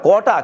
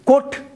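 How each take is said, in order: First: The word ends with a final vowel sound. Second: The word ends on a bare consonant sound. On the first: The speaker calls it right. "కోట కోట" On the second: The speaker calls it wrong. "కోట్ ఏమిటి?"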